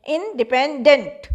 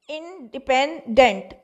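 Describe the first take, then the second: First: independent with the final dent stressed; stress on last syllable. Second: independent slowly, in three separate parts; a slow, divided independent; syllable by syllable. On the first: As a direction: lean hard on dent at the end of independent. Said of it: "dent पर ज़्यादा stress आया". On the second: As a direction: part the syllables of independent for a class. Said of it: "ये तीन syllable हैं". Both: Shown as a demonstration.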